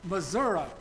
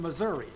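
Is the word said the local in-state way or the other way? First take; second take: local way; other way. First: The word is said the way locals say it. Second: The word is said in a non-local way.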